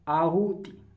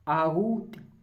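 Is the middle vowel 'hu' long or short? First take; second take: long; long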